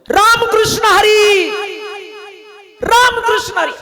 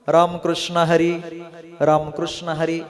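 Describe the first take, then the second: First: It is said at the highest, loudest pitch. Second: It is said in a higher, louder voice.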